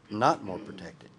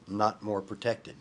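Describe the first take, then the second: First: Said in the usual way. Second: "not more protected" slowed and drawn out; slow stress on not. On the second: Shown as a demonstration. Pastor stressing to students that "not more protected". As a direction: lean on "not". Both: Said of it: "Do you see that?".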